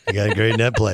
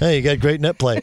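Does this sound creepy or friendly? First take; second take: creepy; friendly. First: It is said in a suggestive, creepy way. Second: It is said in a light, friendly way. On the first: It sounds like a double entendre. "Like, whoa. Same sentence, Different level of creepiness" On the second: It is a plain, harmless compliment. "If you go, hey"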